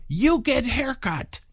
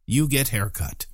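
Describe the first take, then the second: First: High, drawn-out mock yell; retold yell. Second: Said in the usual way. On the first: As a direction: call it out slowly and high, without full volume. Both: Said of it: "yelled out as loud as he could".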